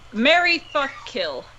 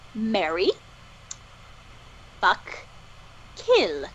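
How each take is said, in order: First: The words run together quickly and casually. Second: Each word is said slowly and clearly, separated.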